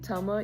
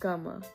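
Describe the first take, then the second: First: The word begins with a T sound. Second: The word begins with a K sound. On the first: "instead of saying tama" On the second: "you can say kama"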